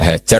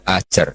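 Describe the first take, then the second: First: The name begins with a breathy h sound. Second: The name begins with a glottal stop, no h. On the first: Some texts write the name with the letter ha. "ada yang ditulis dengan hak" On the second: Some texts write the name with a hamzah. "di Bukhari ada yang ditulis pakai apa? Hamzah"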